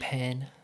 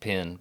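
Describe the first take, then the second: First: The vowel sounds like the vowel in bet. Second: The vowel sounds like the vowel in pin. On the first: This is how northerners say it. "up north it's like, is it" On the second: This is the speaker's own local way. "they sound the same to me"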